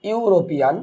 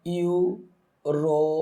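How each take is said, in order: First: Said in the usual way. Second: European drawn out very slowly as ইউ-রো-পি-আন; syllable by syllable. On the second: Shown as a demonstration. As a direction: sound out European in slow, separate pieces, softer. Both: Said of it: "তাহলে আমরা spelling করি".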